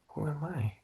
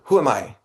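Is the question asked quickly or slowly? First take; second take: slowly; quickly. First: The question is asked slowly and intently. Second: The question is asked very quickly.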